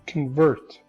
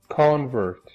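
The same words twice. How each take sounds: First: The stress is on the second syllable. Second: The stress is on the first syllable. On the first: "The stress is on this syllable. This syllable is not stressed" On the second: "with stress shifted to the first syllable"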